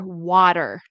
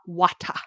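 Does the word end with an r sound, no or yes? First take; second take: yes; no. First: It ends with an r sound and a flap. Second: It ends without an r, with a clear t. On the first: The speaker calls it right. "With an American accent. We say er" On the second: The speaker calls it wrong. "not wata"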